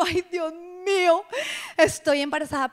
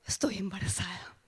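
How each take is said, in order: First: Mock alarm at the news. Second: Shocked hushed whisper; a stunned whispered "Estoy embarazada". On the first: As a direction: realize it with dread. Alarmed realization retold. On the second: Retold or imitated. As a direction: breathe it out in disbelief. Whispered realization after gasp.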